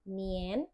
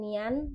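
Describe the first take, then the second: First: The vowel is pronounced like an e. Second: The vowel is pronounced like an open a. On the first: The speaker calls it right. "tapi nien" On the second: The speaker calls it wrong. "A-nya bukan dibaca A tapi E ... jadi bukan nian"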